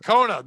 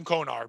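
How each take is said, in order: First: "Kona" with the final R dropped; no hard R. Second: Konar as KOH-nar, stress on the first part. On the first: Host joking says "Kona" without the R. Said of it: "No hard R on that one". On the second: Friend spelling Connor says it "Konar". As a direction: say "Konar" with a long KOH and a hard R. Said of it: "that's how you pronounce it". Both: Shown as a demonstration.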